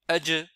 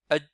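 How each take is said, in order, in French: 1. La consonne finale est relâchée avec un rebond résonnant. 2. La consonne finale est gardée silencieuse, sans relâchement. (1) "la prononciation correcte avec Jim" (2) "le fait de les rendre muettes"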